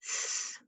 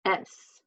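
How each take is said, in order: First: "S," as a voiceless hiss, no vowel; just the sound of "S,", unvoiced sss. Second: Said in the usual way. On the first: Shown as a demonstration. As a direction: hiss the sound of "S," rather than naming the letter. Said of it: "Ends in the". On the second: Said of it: "Let's go ahead and spell stiff".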